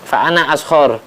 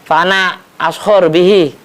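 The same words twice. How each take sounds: First: Said in the usual way. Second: Boastful hoopoe. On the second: Acted. Hoopoe's boastful reply to Sulaiman.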